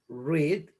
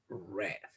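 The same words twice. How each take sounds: First: The vowel is long, like in 'reed'. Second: The vowel is short, like in 'red'. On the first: The reading happens in the present. "En presente se dice read" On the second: The reading happened in the past. "en pasado se dice read"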